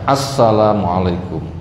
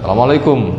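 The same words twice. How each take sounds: First: Every syllable is pronounced clearly and plainly. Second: The start is mumbled and the final 'kum' is stressed. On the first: It is a sincere wish of peace. The speaker calls it right. "yang benar adalah yang gamblang saja" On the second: It sounds like a greeting but hides a curse. The speaker calls it wrong. "Sing arep itu nggak dijelaskan, ... kumnya itu yang ditonjolkan"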